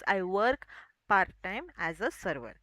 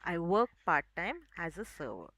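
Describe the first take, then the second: First: The R sounds in the words are pronounced. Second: The R sounds in the words are silent. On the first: The speaker calls it wrong. "which we usually use is" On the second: The speaker calls it right. "if we want to pronounce this sentence with our correct accent"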